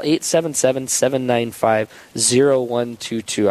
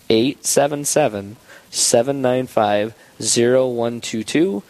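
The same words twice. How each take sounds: First: The number is said at a faster pace. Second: The number is said at a slower pace.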